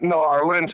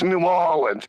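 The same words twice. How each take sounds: First: Orleans is said with an R sound. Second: Orleans is said without an R sound. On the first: The speaker calls it wrong. "It's not New Orleans" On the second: The speaker calls it right. "It's New Orleans"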